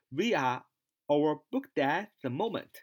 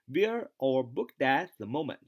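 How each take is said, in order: First: The words 'we are' are said separately in full. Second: The words 'we are' are linked into 'we're'. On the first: The speaker calls it wrong. "不要读we are" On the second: The speaker calls it right. "连读we are 连读是we're 啊"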